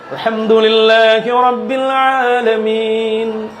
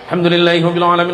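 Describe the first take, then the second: First: It is recited slowly and deliberately. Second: It is recited quickly without lingering. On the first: "Kalau tartil itu kan yang pelan" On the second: "Yang hadar"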